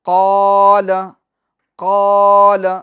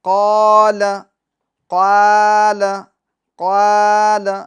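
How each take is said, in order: First: The long a vowel is heavy and full. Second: The long a vowel is thin and light. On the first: The speaker calls it right. "पूर्व यानी मोटा पढ़ेंगे, ये सही है" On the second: The speaker calls it wrong. "ये गलत है"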